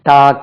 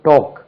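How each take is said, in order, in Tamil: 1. உயிரொலி திறந்த 'ah' ஒலி. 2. உயிரொலி உருண்ட 'aw' ஒலி. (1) "நம்ம எப்படி உச்சரிக்கிறோம்? டாக் என்று உச்சரிக்கிறோம்" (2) "அதுக்கு உச்சரிப்பேங்க டோக்"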